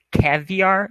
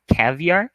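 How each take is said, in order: First: "caviar" said the English way, rising on the end; caviar with English stress. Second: "caviar" said in English, rising at the end; caviar, English intonation. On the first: ("caviar" com entonação do inglês) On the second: ("caviar" com a entonação em inglês) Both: Shown as a demonstration. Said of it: "essa é a entonação".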